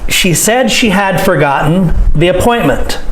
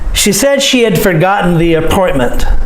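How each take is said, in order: First: Every word, including 'had', is said fully and clearly. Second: 'Had' is reduced and run into the words around it. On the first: "proper English is" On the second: "listen to me say them the natural way"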